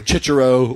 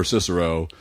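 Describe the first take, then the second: First: "Cicero" with ch sounds, CHEE-cheh-ro; Italian pronunciation. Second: Said in the usual way. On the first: Shown as a demonstration. Offering a friend's Italian version, "Cicero" said with ch sounds. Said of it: "he pronounces it Cicero". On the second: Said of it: "uh, whichever way".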